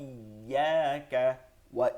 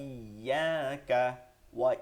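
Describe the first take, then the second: Both takes have the same delivery.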